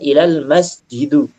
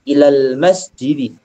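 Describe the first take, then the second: First: The last word ends with a 'u' vowel. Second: The last word ends with an 'i' vowel. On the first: The speaker calls it wrong. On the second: The speaker calls it right.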